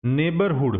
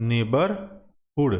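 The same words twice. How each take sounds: First: Said in the usual way. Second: Slow teaching pronunciation. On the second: Shown as a demonstration. Teacher spells out neighbourhood for students, slowly. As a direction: say neighbourhood very slowly, drawing out each syllable.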